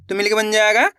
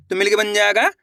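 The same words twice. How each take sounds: The two takes are said the same way.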